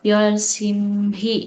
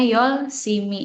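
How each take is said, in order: First: An h sound is pronounced before the final vowel. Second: No h sound; the m links into the vowel. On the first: "sini ada H, terus ada I" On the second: "Kalau dibacanya Yolsimi"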